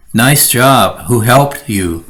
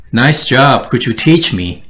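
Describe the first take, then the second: First: Dry backhanded praise; sarcastic. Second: Warm, admiring compliment; mean the praise; sincere praise. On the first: Coworker praising backhandedly, sarcastic. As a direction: praise with a sneer. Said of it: "you're just being very sarcastic". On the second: Coworker praising genuinely, sincere. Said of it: "Sounds a lot better". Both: Shown as a demonstration.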